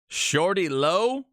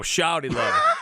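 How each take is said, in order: First: The first vowel sounds like 'oh'. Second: The first vowel sounds like 'ow'. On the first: The speaker calls it wrong. "You can't go with the O" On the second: The speaker calls it right. "Got to put some ow in there"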